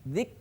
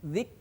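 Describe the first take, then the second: First: The final k has a light puff of air. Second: The final k has a light puff of air.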